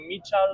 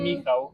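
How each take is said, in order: First: The name is said with Spanish-speaking sounds. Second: The name is said with Polish sounds. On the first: The speaker calls it wrong. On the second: The speaker calls it right.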